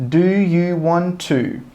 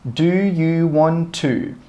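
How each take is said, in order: Both takes have the same delivery.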